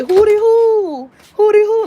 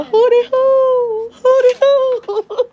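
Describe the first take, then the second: First: High, loud hootie hoo call like Master P; playful imitation of a rap catchphrase. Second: High, slow hootie hoo through sobs; a lost little kid wailing the call; hammed-up tearful hootie hoo; mock crying. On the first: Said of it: "you remember Master P". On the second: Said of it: "walking around crying".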